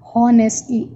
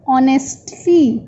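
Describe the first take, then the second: First: The h at the start is pronounced. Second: The h at the start is not pronounced. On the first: The speaker calls it wrong. "We never say honestly" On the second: The speaker calls it right. "H is silent, so we say honestly"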